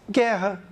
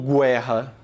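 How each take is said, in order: First: The u after the g is silent. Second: The u after the g is pronounced. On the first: The speaker calls it right. "você diz guerra. Como esse U não teve pronúncia" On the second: The speaker calls it wrong. "você não está falando guerra"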